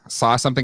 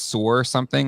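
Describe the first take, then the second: First: The word saw ends without an R sound. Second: The word saw ends with an added R sound. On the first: "they say saw something" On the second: "as sore something, ... where the fuck did the R come from?"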